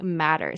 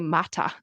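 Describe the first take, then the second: First: It is said in an American accent. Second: It is said in a non-American accent. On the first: "they said matter" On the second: "They didn't say mata"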